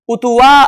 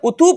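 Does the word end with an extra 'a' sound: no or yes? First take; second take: yes; no. First: The word ends with an added 'a' sound. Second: The word ends on the long 'u' sound. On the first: The speaker calls it wrong. "उतुआ ऐसा नहीं पढ़ेंगे" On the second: The speaker calls it right. "ये उतू पढ़ा तो जाएगा"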